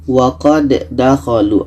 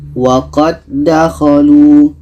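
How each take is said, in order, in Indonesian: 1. Bunyi d pertama dilepas dengan memantul. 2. Kedua bunyi d menyatu menjadi satu d panjang. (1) "jadi bukan wa qad dakhalu. Ah, itu tidak boleh" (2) "dal yang pertama kita masukkan ke dal yang kedua"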